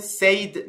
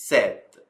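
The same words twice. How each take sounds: First: Said said as "sayd", with the long ay vowel; wrong pronunciation. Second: Said said as "sed", short e vowel, dropping low; right pronunciation. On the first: Teacher showing students the wrong way to say said, like sayd. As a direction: say said wrongly, rhyming with paid. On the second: Teacher giving students the correct sed sound for said. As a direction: say said correctly, like bed. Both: Shown as a demonstration. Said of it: "دقت کنید said نیست".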